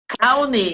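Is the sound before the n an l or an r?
l. The sound before the n is an l. The speaker calls it wrong. "não conseguem fazer o som do r"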